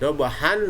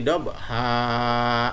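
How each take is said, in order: First: The word ends with an n sound. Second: The word ends with a long vowel. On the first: The reading continues without stopping. "dobahan menjadi dobha" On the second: The reading stops at the end of the verse. "nunnya hilang, tanwinnya hilang, dan dibaca panjang"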